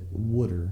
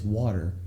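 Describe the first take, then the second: First: It is said with a regional 'wooder' pronunciation. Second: It is said with the ordinary standard pronunciation. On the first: "from this part of the country, certain people pronounce it wooder" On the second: "it's water"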